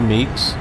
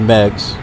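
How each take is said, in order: First: The vowel is long, as in 'seek'. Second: The vowel is short, as in 'leg'. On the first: The speaker calls it wrong. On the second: The speaker calls it right. "I believe it's Megs"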